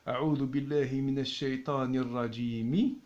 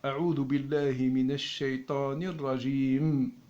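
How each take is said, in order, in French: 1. Le dernier mot se termine par une voyelle i ajoutée. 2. Le dernier mot se termine brusquement sur le son m. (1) "cet accent-là est lié avec, ... ce qui vient après" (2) "et on s'arrête. Hmm, il n'y a pas d'accent, il n'est pas prononcé"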